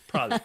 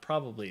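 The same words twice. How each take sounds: First: The word is shortened to two syllables, 'prolly'. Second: All three syllables of the word are said. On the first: The speaker calls it right. "it's probably. P R O L L Y. It's the Georgia pronunciation" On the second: The speaker calls it wrong. "is not probably"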